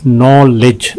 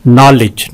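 First: "नॉलेज" drawn out in two beats; syllable breakdown. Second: Said in the usual way. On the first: Shown as a demonstration. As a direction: lengthen the first syllable of "नॉलेज". ("नॉलेज" दो हिस्सों में खींचकर) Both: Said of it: "दो हैं इसके".

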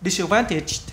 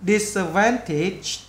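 First: Quick, run-together word; fast natural saying. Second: "Disadvantaged" slowed, ending clearly released; marked final sound. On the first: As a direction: say it briskly in one go. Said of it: "khi người ta nói nhanh là cái bài". (nói nhanh liền một mạch) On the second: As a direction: draw out "Disadvantaged" and mark its last sound. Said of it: "Nhấn âm này". (đọc chậm, nhấn âm cuối "Disadvantaged") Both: Shown as a demonstration.

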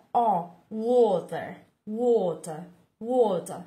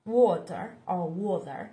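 First: "water" with a rounded open O; rounded O vowel. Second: "water" with an American flapped t; American accent. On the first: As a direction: stress the O in "water". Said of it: "chữ O các bạn nên lưu ý". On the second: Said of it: "theo kiểu Mỹ là water". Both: Shown as a demonstration.

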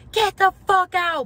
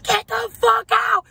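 First: Much higher, louder retold yell; mom yelling. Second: Much higher, louder, slower shriek; friend shrieking. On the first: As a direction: bark her out of the room. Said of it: "She's like". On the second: Retold or imitated. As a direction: screech it even harder than the mom. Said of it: "My best friend's saying".

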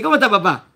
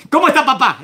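First: Said in the usual way. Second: Brotherly casual. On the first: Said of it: "cuando le dice". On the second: Acted. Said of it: "Es como diciendo".

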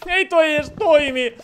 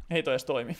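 First: Higher, slow drawn-out exasperated complaint. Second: Said in the usual way. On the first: Real, not acted. Streamer finds his button doesn't work, slow higher exasperation. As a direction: stretch "Ei" out in mock despair.

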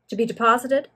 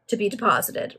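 First: "deposited" lifted in a rising question. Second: "deposited" falling as a statement; confirming reply. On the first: Pennywhiffe checking on the bills, rising "deposited?". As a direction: ask "To be deposited" with the pitch going up at the end. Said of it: "asked the individual". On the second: Greenwood confirming to Pennywhiffe, falling "deposited". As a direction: echo "To be deposited" back with a settled, falling end. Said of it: "replied Greenwood". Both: A narrator's reading.

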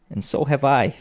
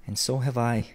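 First: Put-on higher boyish chiming in; eager cry. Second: Mild, softer chiming in; softer exclamation. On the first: Peter agrees with his mother, eagerly crying out. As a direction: chime in keenly. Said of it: "cried Peter". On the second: Another child echoes Peter, mildly exclaiming. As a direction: echo the agreement, understated and softer. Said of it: "exclaimed another". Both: A narrator's reading.

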